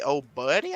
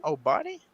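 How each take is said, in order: First: "Oh, buddy" said plainly as a first guess; first try at the name. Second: "Oh, buddy?" said much higher with a questioning rise; unsure second try. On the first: Host reading a viewer's name aloud, a plain first try. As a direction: read "Oh, buddy" straight off the screen. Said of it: "I don't know how to say this name". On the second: Host unsure how to say a viewer's name, high questioning try. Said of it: "I guess that's how you say that name". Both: Shown as a demonstration.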